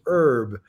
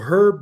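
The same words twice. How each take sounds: First: The word begins without an h sound. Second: The word begins with an h sound.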